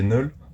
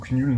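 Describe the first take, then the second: First: The name begins with an N sound. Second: The name begins with a K sound. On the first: The speaker calls it right. "non, c'est Null" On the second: The speaker calls it wrong. "qui se ne dit pas euh, Kn- euh, Knull ou Knull"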